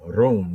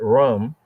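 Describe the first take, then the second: First: The vowel is a long 'oo' sound. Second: The vowel is a short 'uh' sound. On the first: This is the Hebrew pronunciation. The speaker calls it right. "but Hebraically as room" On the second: This is how an English reader would say it. The speaker calls it wrong. "not rum, like we will see it in English"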